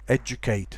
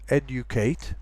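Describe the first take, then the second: First: The middle is a single j sound. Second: The middle is a d followed by a y sound. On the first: It is how most people say it nowadays. "most people I think nowadays say educate" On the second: It is a careful pronunciation. "which is a very careful pronunciation"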